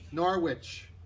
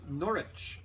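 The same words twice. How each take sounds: First: It is said the way the local guest says it. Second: It is said with the English pronunciation.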